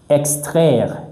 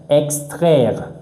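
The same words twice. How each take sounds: Both takes have the same delivery.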